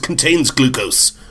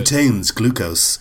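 First: It is read in a plain, ordinary voice. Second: It is read in a sultry, seductive advert voice.

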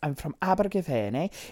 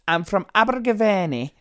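First: It is spoken in a Welsh accent. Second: It is spoken in a Scottish-sounding accent. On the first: "This is the worst Welsh accent ever" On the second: "that was like Scottish"

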